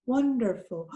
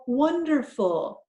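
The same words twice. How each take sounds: First: Wonderful blended quickly; said fast. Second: Wonderful drawn out slowly and higher, pleased; delighted recognition. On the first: Teacher blending chunks for the class, quick. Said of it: "let's kind of say it fast". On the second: Teacher discovering the word with the class, slow and delighted. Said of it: "it sounds like the word I know". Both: Shown as a demonstration.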